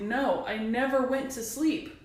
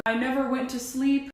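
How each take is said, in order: First: Slow, insistent stress on "never"; emphatic insistence. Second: Said in the usual way. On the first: Real, not acted. Rebutting those who say maybe you forgot, slow and emphatic on "never". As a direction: lean on "never", drawing the sentence out slowly. Insisting against imagined doubters.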